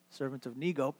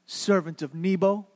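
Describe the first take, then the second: First: SERVANT OF NEGO low and very soft; hushed, private backtalk; muttered under the breath. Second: Said in the usual way. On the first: Acted. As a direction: sneak out the altered name in a quiet mumble.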